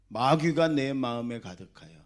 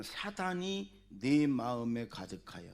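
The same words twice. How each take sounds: First: 마귀가 punched loud, preaching force; 마귀가 hit hard and loud, falling tune; loud emphatic repeat. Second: Said in the usual way. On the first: Shown as a demonstration. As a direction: build up and hammer 마귀가 home.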